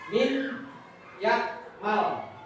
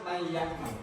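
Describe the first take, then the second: First: The n is sounded separately before the y. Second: The n merges into a doubled nasal y. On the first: The speaker calls it wrong. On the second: The speaker calls it right.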